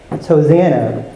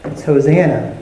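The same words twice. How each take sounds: First: "Hosanna" stressed again, falling; "Hosanna" restated; reveal repeated. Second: "Hosanna" stressed, falling; "Hosanna" given weight; reveal. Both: Shown as a demonstration. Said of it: "Does that sound like".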